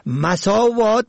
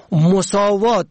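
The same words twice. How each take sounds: First: مساوات said "masaawaat"; fatha on first syllable. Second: مساوات said "mosaawaat"; damma on first syllable. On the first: Presenter teaching the word for evils, مساوات as "masaawaat". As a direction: open مساوات with short a. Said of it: "به فتح اول". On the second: Presenter teaching the word for equality, مساوات as "mosaawaat". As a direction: open مساوات with short o or u. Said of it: "به ضم اول". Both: Shown as a demonstration.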